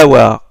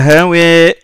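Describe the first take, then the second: First: The final vowel is an open a sound. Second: The final vowel leans toward an e sound. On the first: "pas hawa" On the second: "Il y a une inclinaison. Il y a imala. C'est E"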